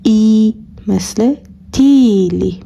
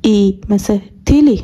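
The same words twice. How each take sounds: First: تیلی with the i drawn out long, slowly; slow long-vowel demo. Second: تیلی with a quick short i; brisk short-vowel demo. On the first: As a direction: stretch the i in تیلی. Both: Shown as a demonstration. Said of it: "ببینیم فرقشون چطوریه".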